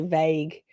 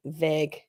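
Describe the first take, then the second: First: "vague" with a long ay glide, vayg; Australian "vague". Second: "vague" with a short eh, like veg; American "vague". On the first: Australian host showing chat how she says it, "vague" as vayg. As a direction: say "vague" the Australian way, vowel drawn to ay. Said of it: "I mean, I say vague". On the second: Host showing how y'all say it, "vague" as veg. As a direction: say "vague" the American way, rhyming with leg. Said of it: "you, y'all say vague". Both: Shown as a demonstration.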